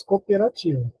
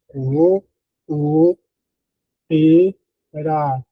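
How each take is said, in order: First: Said in the usual way. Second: Cooperativa split into co, o, pe, ra, ti, va, slow and spaced; syllable by syllable. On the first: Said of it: "nós falamos cooperativa". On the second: Shown as a demonstration. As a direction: read it exactly as written, one syllable at a time, co-o-pe-ra-ti-va. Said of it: "ler a palavra como ela está escrita". (soletrado sílaba por sílaba, co-o-pe-ra-ti-va, devagar)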